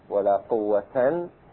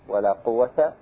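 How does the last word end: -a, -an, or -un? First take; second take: -an; -a. First: The last word ends in -an. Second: The last word ends in a short a. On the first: "والنصب" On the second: "الفتح"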